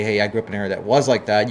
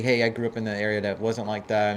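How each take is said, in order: First: Was leaned on and louder, contrasting the earlier take; stress on was. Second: Said in the usual way. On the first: Shown as a demonstration. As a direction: hit the word was to set it against wasn't. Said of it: "and when you say". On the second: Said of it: "when you say".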